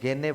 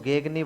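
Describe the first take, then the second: First: The middle g sound is left silent. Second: The middle g sound is clearly pronounced. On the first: "सामान्यतः गेने ही बोलते हैं, ऐसा बोलते हैं कि ये जी साइलेंट है" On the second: "अब इसको गेगनी बोलेंगे"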